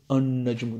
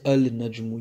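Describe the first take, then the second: First: The L is dropped and the N is doubled. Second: The L is pronounced before the N. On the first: The speaker calls it right. "you say An-Najmu" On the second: The speaker calls it wrong. "You don't say Al-Najmu"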